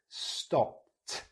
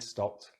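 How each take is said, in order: First: The ending sound is loud and emphasized. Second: The ending sound is soft and reduced. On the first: "Now I'll exaggerate it" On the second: "I'm going to say it naturally"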